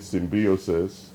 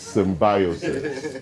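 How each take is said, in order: First: The word is said with an American pronunciation. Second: The word is said with a British pronunciation. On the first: "I know Americans might call it symbiosis" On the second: "the right English pronunciation is symbiosis"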